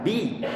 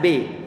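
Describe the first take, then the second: First: The vowel is a clear 'i' sound. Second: The vowel sounds like an 'e' sound. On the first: The speaker calls it right. "ba dikasrohkan" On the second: The speaker calls it wrong. "bukan B"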